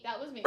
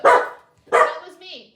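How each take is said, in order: First: Quiet aside. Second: Loud aside. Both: Real, not acted.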